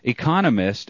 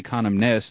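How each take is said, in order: First: The word is said with a single n sound. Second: The word is said with an extra n sound. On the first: The speaker calls it right. "economist is the word" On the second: The speaker calls it wrong. "not economist. There's only one N in it"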